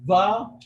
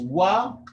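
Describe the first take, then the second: First: The syllable begins with a v sound. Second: The syllable begins with a rounded w sound. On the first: The speaker calls it wrong. "someone might say va" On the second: The speaker calls it right. "Instead of saying wa"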